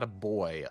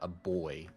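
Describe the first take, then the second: First: It is said in a normal voice. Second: It is said in a gruff Kratos voice.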